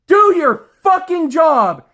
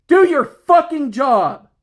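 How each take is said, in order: First: Slow, high, even louder yell with a bitter laugh; louder furious shout. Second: Slow, high, loud angry order; angry command. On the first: Ordering coworkers again, louder furious yell with a laugh. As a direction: push it past the limit, almost laughing in rage. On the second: Ordering lazy coworkers to work, slow angry shout. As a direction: spell it out like a final warning. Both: Real, not acted. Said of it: "angry as hell over this shit".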